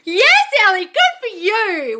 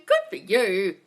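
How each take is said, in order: First: High, loud and slow congratulations; big happy praise for a viewer; delighted praise. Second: Said in the usual way. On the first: Real, not acted. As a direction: cheer her on, drawing out good for you. Cheering a viewer's good news.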